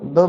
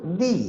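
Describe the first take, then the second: First: The word ends in a short 'uh' vowel. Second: The word ends in a long 'ee' vowel. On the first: It comes before a word starting with a consonant. "द becomes दी" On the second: It comes before a word starting with a vowel. "द becomes दी"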